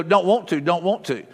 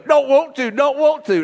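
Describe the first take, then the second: First: Said in the usual way. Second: Put-on high, whiny child's refusal; scared little boy. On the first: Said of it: "we'll go". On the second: Son at the top of the water slide refusing, high and whiny. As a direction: whine it like a frightened little kid. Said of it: "he goes".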